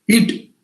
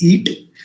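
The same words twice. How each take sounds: First: It is said in a curt, harsh tone. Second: It is said in a gentle, polite tone. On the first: The guest loses the wish to eat. The speaker calls it wrong. "If I use the word eat in, in, in my tone like this, definitely uh, the temptation of doctor will go down" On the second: The guest eats happily. The speaker calls it right. "if I was polite"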